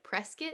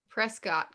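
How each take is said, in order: First: The ending rhymes with biscuit. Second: The ending does not rhyme with biscuit. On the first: The speaker calls it right. "you said like biscuit" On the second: The speaker calls it wrong. "it looks like Prescott College, but it's not"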